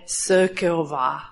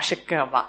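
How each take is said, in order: First: The name begins with an s sound. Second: The name begins with an sh sound. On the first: This is the Hungarian reading of the spelling. The speaker calls it right. "Ale maďarsky SZ je S" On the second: This is the Polish reading of the spelling. The speaker calls it wrong. "SZ se v polštině čte jako š, proto jako tady všichni mi říkají šekova"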